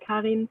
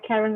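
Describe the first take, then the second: First: The name is pronounced the German way. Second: The name is pronounced the English way. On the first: "in German you say Karin" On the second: "you can say it the English way as well"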